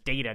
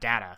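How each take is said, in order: First: The name is pronounced the British way. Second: The name is pronounced the non-British way. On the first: This is how a British actor said the name. "because Patrick Stewart is British, his name was Data" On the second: This is how the character's actor thought the name was said. "not Data"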